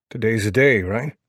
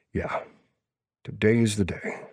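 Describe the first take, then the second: First: DAY lifted higher, then a questioning "right?"; checking question. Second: "today is the day" softly confirmed, falling at the end; confirming answer. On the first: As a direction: ask "Today's the day" as a check, raised on DAY. Friend asks for confirmation in story. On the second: Narrator's character confirms it. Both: Acted.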